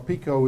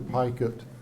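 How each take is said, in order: First: The name is said with a French pronunciation. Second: The name is said with an English pronunciation. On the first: This is how the family said it in France. "is the French pronunciation" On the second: This is how the name came to be said here. "pronunciation kind of evolved to Pikett"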